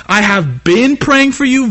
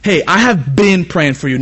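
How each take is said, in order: First: Slow, higher, leaning on "praying" with a lift; emphatic slow praying. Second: Said in the usual way. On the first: Shown as a demonstration. Preacher showing the congregation a heartfelt greeting, emphatic and slow. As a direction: stretch out "I have been praying for you" warmly and sincerely. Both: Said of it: "Notice the difference".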